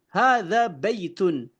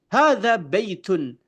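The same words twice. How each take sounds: Both takes have the same delivery.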